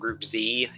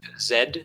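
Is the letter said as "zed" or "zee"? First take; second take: zee; zed. First: The letter is said the American way, as zee. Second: The letter is said the British way, as zed.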